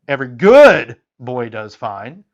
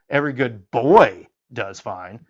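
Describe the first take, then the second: First: The stress falls on the word good. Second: The stress falls on the word boy.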